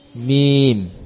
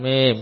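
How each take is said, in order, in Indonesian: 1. Vokalnya terdengar seperti i. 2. Vokalnya terdengar seperti e. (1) "tapi mim" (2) "jangan mem"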